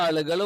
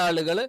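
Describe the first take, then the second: Both takes have the same delivery.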